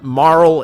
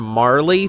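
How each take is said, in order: First: The name ends on the l sound. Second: The name ends with an added ee vowel. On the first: The speaker calls it right. "Marl is the uh, preferred uh, pronunciation" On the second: The speaker calls it wrong. "I called her Marley for years"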